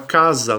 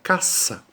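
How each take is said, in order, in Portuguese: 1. A consoante do meio é um z vibrado. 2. A consoante do meio é um s sibilante. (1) "fala com som de Z" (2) "No espanhol nós vamos dizer com som de S"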